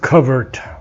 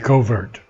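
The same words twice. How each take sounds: First: It is said with a British pronunciation. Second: It is said with an American pronunciation.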